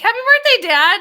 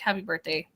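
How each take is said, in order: First: It is said in a warm, friendly tone. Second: It is said in a cold, hateful tone.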